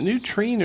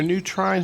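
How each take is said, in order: First: "Trine" rhyming with green; TRINE like "treen". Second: "Trine" as "try" plus n; TRINE rhyming with vine. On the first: Angler unsure of the bait's name, says "Trine" as "treen". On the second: Angler offering the other name, says "Trine" to rhyme with vine. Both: Shown as a demonstration. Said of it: "is it new Trine or new Trine".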